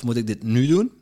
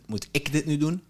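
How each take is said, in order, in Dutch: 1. De klemtoon valt op het woord nu. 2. De klemtoon valt op het woord ik. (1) "Is er dit het geschikte moment om het te doen?" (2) "Of kan het ook iemand anders zijn?"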